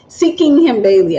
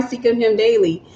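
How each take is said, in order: First: "Seeking Him Daily" said again more firmly and clearly; "Seeking Him Daily", repeated with deliberate clarity; careful repeat. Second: Said in the usual way. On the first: Real, not acted. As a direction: enunciate each word of "Seeking Him Daily" to correct rushed speech. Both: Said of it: "I sometimes speak too fast".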